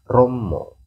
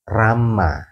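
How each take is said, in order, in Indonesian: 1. Vokalnya dilafalkan sebagai bunyi 'o' bulat. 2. Vokalnya dilafalkan sebagai bunyi 'a' terbuka. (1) "dialek di sana itu menggunakan logat O" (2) "Jawa Barat menggunakan dialeknya A"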